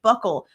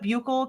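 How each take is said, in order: First: The word sounds just like buckle. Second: The word does not sound like buckle. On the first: This is what a lot of other people say. "it's supposed to be like buckle" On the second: This is what people in the business say. "I was always taught Buchel"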